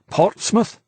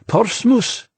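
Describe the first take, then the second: First: It is said with an English accent. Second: It is said with a French accent. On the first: An English speaker said it. "just the way an Englishman would" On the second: A French speaker said it. "They say Portsmouth"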